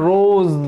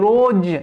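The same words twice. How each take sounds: First: The final consonant is a 'z' sound. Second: The final consonant is a 'j' sound. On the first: The speaker calls it right. "এটা রোজ, জ জ sound" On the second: The speaker calls it wrong. "যদি জ বলি তাহলে কি? রোজ"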